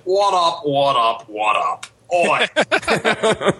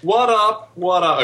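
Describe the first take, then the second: First: Put-on Australian greeting; hammed-up Aussie call-out, ending on a high "Oi"; fake Australian accent. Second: Said in the usual way. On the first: Podcast guest greeting the panel in a fake Australian accent. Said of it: "my fake Australian accent". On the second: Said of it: "Excuse me, I should put on".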